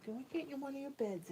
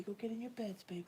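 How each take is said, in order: First: "Go get in one of your beds" voiced, higher, coaxing. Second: "Go get in your beds" whispered softly. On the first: Coaxing her cat into his bed, high soft baby talk. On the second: Sending her sleepy cat to bed, soft whisper. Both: Real, not acted.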